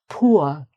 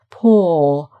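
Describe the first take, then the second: First: The vowel glides between two vowel sounds. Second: The vowel is one long sound like 'or'. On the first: "this is pronounced ua, ua. So it's almost two. It is two vowel sounds put together" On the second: "A lot of people just pronounce it poor, poor. So um, it would be more like the or in court"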